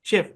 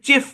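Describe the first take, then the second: First: The word begins with an sh sound. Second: The word begins with a ch sound. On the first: The speaker calls it right. "French ভাষায় সিএইচ তে তালব্য স" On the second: The speaker calls it wrong. "জোর করি এটা চেফ বলি, এটা হবে না"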